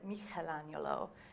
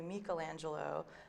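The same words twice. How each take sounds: First: The name is said with Tuscan pronunciation. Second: The name is said with standard Italian pronunciation. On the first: "that would have been the Tuscan uh, pronunciation" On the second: "in Italian it would be Michelangelo"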